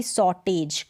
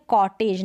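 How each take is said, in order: First: Slow "सॉटेज" with an s sound opening it; wrong soft-c pronunciation. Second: "कॉटेज" opening on a hard k sound; correct hard-c pronunciation. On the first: Teacher warns learners off misreading cottage, wrong soft-c pronunciation. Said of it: "ना कि". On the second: Teacher models the word cottage for learners, correct hard-c pronunciation. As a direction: say "कॉटेज" with k, as in kite. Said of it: "ना कि सॉटेज". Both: Shown as a demonstration.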